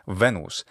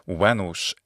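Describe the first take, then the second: First: It uses the ecclesiastical Latin pronunciation. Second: It uses the classical Latin pronunciation. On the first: "in ecclesiastical pronunciation is" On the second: "in Latin"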